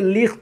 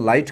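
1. इसमें छोटा i है और गले वाला kh है। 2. इसमें 'eye' स्वर है और kh नहीं है। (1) "ये लिख्त या लीस्ट हुआ करता था पहले" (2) "बाद में इसे नाइट और लाइट कर दिया गया"

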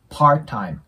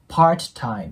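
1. "t"は落として、単語はつなげる。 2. 二つの単語は分かれていて、"t"は破裂させる。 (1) "次に母音が来ないときは音が消えます" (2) "っていう感じで分けるんじゃなくて"

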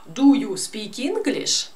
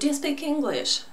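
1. 'Do you' произносится полностью и раздельно. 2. 'Do you' сливаются в один короткий слог.

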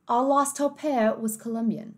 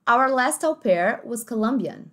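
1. Fala-se com sotaque de inglês britânico. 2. Fala-se com sotaque de inglês americano. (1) "No britânico ficaria mais ou menos assim" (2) "no inglês mais americanizado ficaria assim"

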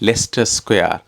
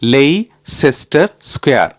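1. Leicester இரண்டு அசைகளாக சொல்லப்படுகிறது, Les-ter. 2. Leicester மூன்று அசைகளாக சொல்லப்படுகிறது, Lei-ces-ter. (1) "அது வந்து லெஸ்டர் ஸ்கொயர்" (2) "நான் எப்படி வாசிச்சேன் தெரியுமா?"

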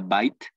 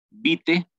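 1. Se dice con su pronunciación real en inglés. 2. Se lee letra por letra, tal como se escribe. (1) "y no que se pronuncia bite" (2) "aquí lo tomo como se escribe"

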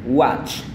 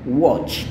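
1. Diucapkan dengan aksen Amerika. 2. Diucapkan dengan vokal bulat ala Inggris. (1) "Yang pertama adalah gaya Amerika" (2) "Sedangkan gaya Inggris dia A ini berubah jadi O"

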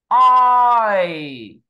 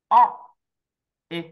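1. Một nguyên âm trượt nhẹ nhàng sang nguyên âm kia. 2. Hai nguyên âm được phát âm thành hai âm riêng biệt. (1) "mà phải kéo từ thằng này qua thằng kia nè" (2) "Tất nhiên không phải cắt ra như vậy"

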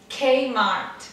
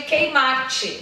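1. É dito do jeito australiano, com T final suave. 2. É dito do jeito brasileiro, com T final forte. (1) "O T" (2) "O brasileiro chama de Kmart"

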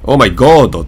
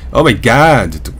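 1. 最後の単語の母音は'oh'に聞こえます。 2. 最後の単語の母音は'ah'に聞こえます。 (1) "とはあんまり言わないですよね" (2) "あに近いですよね"

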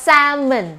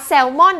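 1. เสียง L ไม่ออกเสียง และสระตัวท้ายลดเสียง 2. เสียง L ออกเสียง และสระตัวท้ายออกเสียงเต็ม (1) "เราต้องอ่านว่า salmon ... L ตัวนี้ไม่ได้ออกเสียง ... เป็นเสียงชัว" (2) "ไม่ใช่ปลาแซลมอน"

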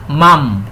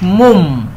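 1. ده صوت a مفتوح. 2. الصوت قصير ومقفول. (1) "اتنطق مفتوح" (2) "ما قلناش مم"

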